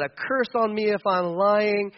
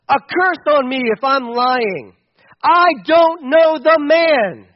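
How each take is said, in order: First: Said in the usual way. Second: Loud, slow cursing denial; desperate oath. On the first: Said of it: "that's pretty intense stuff". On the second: Acted. Peter curses himself, denying.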